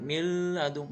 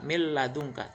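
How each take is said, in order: First: The merged sound carries a nasal hum. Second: The merged l is said without any nasal hum. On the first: The speaker calls it wrong. "itu namanya dengung" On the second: The speaker calls it right. "tanpa disertai dengung"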